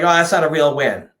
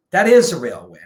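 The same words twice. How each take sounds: First: "not" stressed in a lightly mocking voice; mock doubter. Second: "is" punched and held with a falling tune; stress on IS. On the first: Quoting people who doubt the win, lightly mocking. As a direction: toss it off like a doubter. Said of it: "some people are like". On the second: Real, not acted. Rebutting the doubters with stress on "is". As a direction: hit the word "is" hard.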